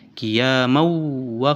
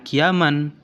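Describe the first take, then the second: First: The n sound merges into the w. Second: A clear n sound ends the word. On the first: The speaker calls it right. "harus ditasdidkan ke huruf yang berikutnya" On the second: The speaker calls it wrong. "bukan kiaman"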